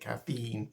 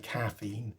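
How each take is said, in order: First: The stress is on the second syllable. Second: The stress is on the first syllable. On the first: This is the American way of saying it. "Americans tend to put emphasis on the second syllable, making it caffeine" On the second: This is the English way of saying it. "We say caffeine. ... We put uh, emphasis on the first syllable"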